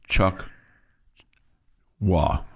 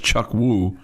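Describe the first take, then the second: First: The name ends with an "ah" vowel. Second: The name ends with an "oo" vowel. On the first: This is how the name is said now. "now it's Chuck Wah" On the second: This is how the name used to be said. "it was Chuck Woo"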